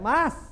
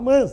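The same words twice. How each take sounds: First: The vowel is open and not nasalized at all. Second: The vowel is nasalized, as if it had a tilde. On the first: The speaker calls it right. "é aberto assim" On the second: The speaker calls it wrong. "Só fala errado, Como se tivesse um tio em cima"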